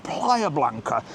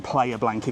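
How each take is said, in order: First: Playa Blanca drawn out slowly in a mock-correct way; slowly overpronounce Playa Blanca to mock the correction; mock correct pronunciation. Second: Said in the usual way. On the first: Shown as a demonstration. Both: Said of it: "it's pronounced Playa Blanca".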